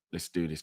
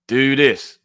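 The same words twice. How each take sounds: First: Said in the usual way. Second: Loud, drawn-out rallying call; hyped shout. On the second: Real, not acted. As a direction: stretch it out, loud and higher, to kick things off. Hyping up before playing trailer.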